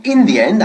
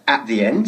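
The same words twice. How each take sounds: First: "in the end" with "in" said high and loud; stress on in. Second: Said in the usual way. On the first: Shown as a demonstration. Teacher stressing the correct "in the end" over "at the end". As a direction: punch the "in" of "in the end". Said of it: "sino in the end". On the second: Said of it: "no diríamos nunca".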